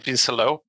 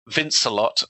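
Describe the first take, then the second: First: The name is said with French pronunciation. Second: The name is said with English pronunciation. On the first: "the French pronunciation is" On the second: "he's inevitably going to be"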